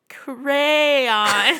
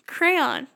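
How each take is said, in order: First: The word is said slowly. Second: The word is said at normal speed.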